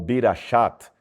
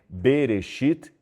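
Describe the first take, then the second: First: The vowels are i, a, then a. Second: The vowels are e, e, then i. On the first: The speaker calls it wrong. "ou Birashat" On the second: The speaker calls it right. "se lê Bereshit"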